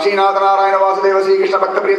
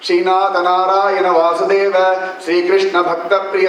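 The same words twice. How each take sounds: First: The names are recited at a rapid pace. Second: The names are recited at a moderate pace. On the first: "இன்னும் வேகமா சொல்லலாம்" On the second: "நீங்க வெறும சொன்னா ஒரு சொல்றேன்"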